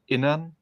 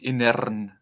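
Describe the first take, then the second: First: The R is pronounced softly. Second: The R is pronounced hard and strongly. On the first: "in German actually I would say Innern" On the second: "some crazy Germans would would uh, pronounce it like Innern"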